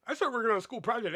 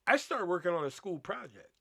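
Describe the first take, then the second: First: "started working" said higher, louder and fast, in disbelief; emphatic repeat. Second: Said in the usual way. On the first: Real, not acted. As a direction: repeat it with incredulous punch, quicker.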